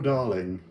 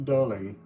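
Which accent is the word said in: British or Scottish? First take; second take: British; British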